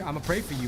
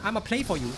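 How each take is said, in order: First: It is said in the speaker's normal accent. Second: It is said in a put-on Chinese accent.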